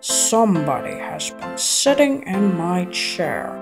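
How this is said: It is said in a great big voice.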